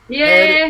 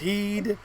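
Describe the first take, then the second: First: The vowel is a short 'eh' sound. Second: The vowel is a long 'ee' sound.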